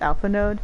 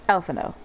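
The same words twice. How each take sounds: First: The final D sound is pronounced. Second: The final D sound is left out. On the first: The speaker calls it wrong. "Most people make the mistake of reading it as" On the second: The speaker calls it right. "you don't say the D, so it's"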